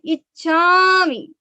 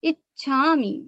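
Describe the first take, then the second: First: इच्छामि with a stretched, louder final मी; इच्छामि, लंबी मी वाली गलत बोली; wrong, long मी. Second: इच्छामि with the weight on the first syllable इ, short मि; इच्छामि, जोर इ पर; stress on ई in इच्छामि. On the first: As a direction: drag out the मी at the end of इच्छामि, the way not to say it. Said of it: "ऐसे नहीं बोलना है". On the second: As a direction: lean on the opening इ of इच्छामि, keep मि light. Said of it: "थोड़ा सा जोर ई के ऊपर आएगा". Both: Shown as a demonstration.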